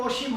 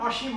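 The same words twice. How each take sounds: First: অসীম opened with a rounded "o": oshim; wrong o-sound. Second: অসীম opened with a broad "aw": awshim; correct open vowel. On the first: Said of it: "এখানে কিন্তু অসীম হবে না". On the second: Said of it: "অসীম হবে". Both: Shown as a demonstration.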